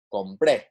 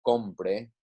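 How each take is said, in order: First: "compré" with "pré" stressed; louder "compré", landing on the final syllable; stress on last syllable. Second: "compre" stressed on "com"; stress on first syllable. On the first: Teacher contrasting two identically spelled words, "compré" stressed on "pré". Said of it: "to show that it is stressed". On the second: Teacher contrasting present subjunctive with preterite, "compre" stressed on "com". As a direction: say "compre" with a light final "pre". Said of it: "it is different from". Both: Shown as a demonstration.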